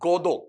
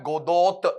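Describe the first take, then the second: First: The final t is left silent. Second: The final t is pronounced. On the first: The speaker calls it right. "यहां पर टी को silent रखना, waiting for गोदो ऐसा पढ़ना है" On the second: The speaker calls it wrong. "गोदोत ऐसा नहीं पढ़ना है"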